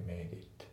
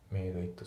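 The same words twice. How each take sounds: First: メイドイット run together as one word, the d and i linked; linked made it. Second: メイドイット said word by word, made and it kept apart; unlinked made it. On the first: Teacher showing the right linked way to say it. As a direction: link the words in メイドイット smoothly. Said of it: "だね". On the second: Teacher showing the wrong unlinked way to say it. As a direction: separate the words in メイドイット, no linking. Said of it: "じゃなくて". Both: Shown as a demonstration.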